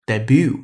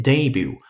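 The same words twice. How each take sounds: First: Debut said day-BOO, stress on the second syllable; American debut, last syllable stressed. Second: Debut said DAY-boo, stress on the first syllable; British debut, first syllable stressed. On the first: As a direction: lean on the end of debut, American style. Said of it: "美音呢，喜欢把重音放在后面". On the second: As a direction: lean on the front of debut, British style. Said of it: "英音呢，喜欢把重音放在前面". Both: Shown as a demonstration.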